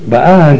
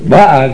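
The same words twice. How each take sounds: First: The stress is on the last syllable. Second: The stress is on the first syllable. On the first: She is coming now. "באה זה הווה" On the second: She already came. "באה זה עבר"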